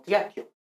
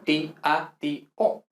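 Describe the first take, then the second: First: "tiatio" run together as tya-tyo; wrong diphthongs. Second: "ti, a, ti, o" as four separate syllables; hiatus. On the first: Teacher rejects the merged form, tya-tyo. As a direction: glide "tiatio" into two quick syllables. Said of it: "no tiatio". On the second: Teacher concludes for students, syllables separated. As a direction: give each of "ti, a, ti, o" its own beat. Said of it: "son hiatos". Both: Shown as a demonstration.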